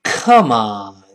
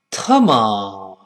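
First: Loud, low-falling angry Come on; a K-sound Come on hurled out in anger; foreigner's angry Come on, heavy and drawn out. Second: Angry Come on starting with t instead of k; low-falling angry curse sound-alike of Come on; angry Chinese version. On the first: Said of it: "老外一生气说". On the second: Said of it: "中国人一生气说". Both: Acted.

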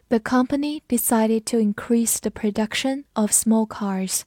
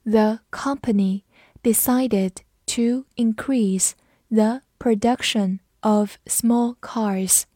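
First: Said in the usual way. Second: Slow, careful read for students to follow; each word laid out slowly and clearly. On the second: Shown as a demonstration. Teacher reading slowly for class to repeat, slow. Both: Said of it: "跟着我慢读一遍".

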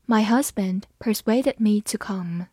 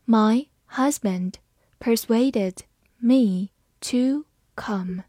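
First: Said in the usual way. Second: Slow, word by word; deliberate teaching pace; slow reading. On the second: Shown as a demonstration. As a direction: read it slowly for learners. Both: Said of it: "好，慢慢来读。".

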